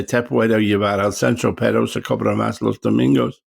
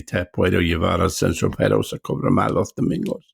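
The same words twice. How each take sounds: First: Recited Spanish line from the film Siesta. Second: Spanish line recited as learned for the film; Andalusian Spanish line. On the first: Recalling his film line in Spanish. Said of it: "I had to say". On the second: Proving he still remembers his Spanish film line. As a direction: recite the line again from memory. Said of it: "with an Andalusian accent there". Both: Shown as a demonstration.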